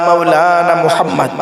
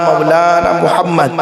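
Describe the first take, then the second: Both takes have the same delivery.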